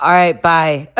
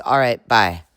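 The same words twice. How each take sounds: First: Higher, louder imitated sign-off; mock goodbye. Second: Said in the usual way. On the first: Amanda ending her complaint call, mock goodbye. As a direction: send up her goodbye with more punch.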